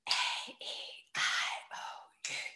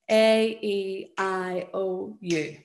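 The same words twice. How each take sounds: First: It is said in a whisper. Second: It is said in a normal rhythmical voice.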